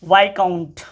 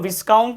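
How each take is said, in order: First: No s sound is pronounced before the k. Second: An s sound is pronounced before the k. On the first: The speaker calls it right. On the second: The speaker calls it wrong.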